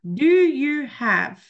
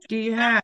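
First: Each word is said fully and separately. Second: 'Do you' is run together into one reduced syllable.

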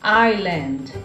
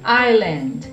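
First: The S is silent in the middle. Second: The same.

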